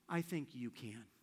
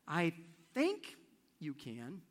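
First: The stress falls on the word "can". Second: The stress falls on the word "think". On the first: Despite everyone else, you are the one who can. "And if she ends this way" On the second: She is unsure but trying to convince herself. "If the emphasis is on the word "think,""

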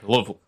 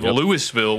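First: The name is said shortened and reduced. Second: The name is said in full, unreduced. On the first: This is how locals say the name. "we say Louisville" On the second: This is how outsiders say the name. "Instead of Louisville"

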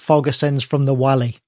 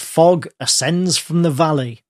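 First: It is pronounced with a German-like accent. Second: It is pronounced in standard English. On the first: The speaker calls it wrong. "Giving it a bit of German mispronunciation" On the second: The speaker calls it right. "except he doesn't say that"

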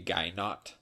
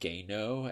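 First: The name is pronounced in a non-French style. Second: The name is pronounced in a French style. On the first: "It could be Gainot" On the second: "I'm pronouncing it Gaino as if it was French"

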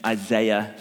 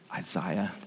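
First: The name is said in a non-British way. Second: The name is said the British way. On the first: "excuse me, Isaiah, someone corrected me recently" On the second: "that's how the Brits say it"

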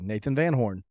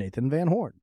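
First: It has a plain, casual conversational inflection. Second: It has a polished, show-intro announcer inflection. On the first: It is an ordinary in-person introduction. "I don't know that I've ever introduced myself in person with that inflection" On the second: It is the way the show's intro is delivered. "now when I introduce myself to people, I'm just going to say"

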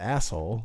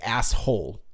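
First: It sounds like one long word, with no h. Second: It sounds like two words, with the h pronounced. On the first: This is how the speakers' own region says it. "It's one just long. Like, you don't pronounce the H" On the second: This is how people elsewhere in the country say it. "They say it like it's two"

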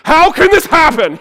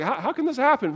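First: It sounds stern, like scolding a child. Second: It sounds gentle, like from a loved one.

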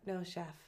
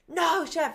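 First: It is said quietly. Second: It is said loudly.

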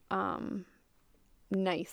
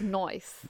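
First: The word has a standard, mild vowel. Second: The word has a broad Australian 'oi' vowel.

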